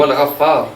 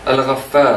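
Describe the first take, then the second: First: "Al-Ghaffar" said as others say it, f light; the everyday "Al-Ghaffar", f not doubled; common reading. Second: "Al-Ghaffar" with doubled f pressed; divine name. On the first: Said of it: "tout le monde dit Al-Ghaffar". (« Al-Ghaffar » courant, f léger) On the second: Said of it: "Le nom de Dieu". (« Al-Ghaffar » avec le f appuyé) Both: Shown as a demonstration.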